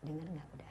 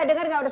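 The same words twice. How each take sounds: First: It is said softly and in a low voice. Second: It is said loudly and in a high voice. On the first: It meets the child at the child's level. The speaker calls it right. "Turunkan frekuensi. A A mencontohkan pada saya ini" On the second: It does not reach the child. The speaker calls it wrong. "jangan begini"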